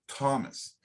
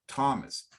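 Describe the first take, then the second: First: The name is said with English sounds. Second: The same.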